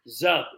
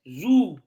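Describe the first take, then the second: First: The vowel sounds like 'eh'. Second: The vowel sounds like 'ooh'. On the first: "sounds like Z E H B" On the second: "I feel like the ooh should be pronounced there"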